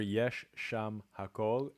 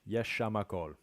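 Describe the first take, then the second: First: Each word is said fully and separately. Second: Sounds are dropped and the words run together. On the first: "I'm listening for" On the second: "two different reductions there"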